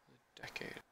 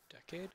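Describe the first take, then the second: First: Said in the usual way. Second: Decade? with a high questioning rise; unsure question. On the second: Real, not acted. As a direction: ask Decade? doubting, pitch rising up. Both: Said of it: "Is that the right one?".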